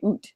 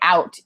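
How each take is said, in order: First: The vowel is a narrow 'oo' sound. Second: The vowel is a wide 'ow' sound. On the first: "you say oot" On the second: "don't say out"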